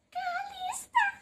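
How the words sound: The voice is hoarse, husky and shrill. "dengan suara serak-serak basah dan cemprengnya"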